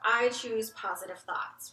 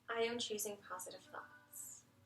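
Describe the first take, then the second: First: It is said aloud at full voice. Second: It is said more softly, inward.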